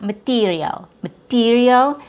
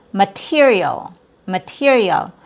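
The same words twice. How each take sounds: First: "material" as ma-TEE-rial; very tense vowel. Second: "material" with short I after the T; relaxed vowel. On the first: Teacher showing learners the error, very tense vowel. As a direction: tighten the stressed vowel of "material" to EE. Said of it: "is very tense". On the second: Teacher modelling the last example, relaxed vowel. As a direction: keep the stressed vowel of "material" lax. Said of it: "This one is a relaxed vowel sound". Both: Shown as a demonstration.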